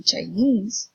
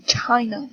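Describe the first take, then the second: First: Chinese with the stress on "nese"; Chinese, light "Chi" and strong "nese"; stress on last syllable. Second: China with the stress on "Chi"; China, strong "Chi" and weak "na"; stress on first syllable. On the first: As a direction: hit the end of Chinese. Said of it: "is in the last syllable". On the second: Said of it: "is in the first syllable". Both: Shown as a demonstration.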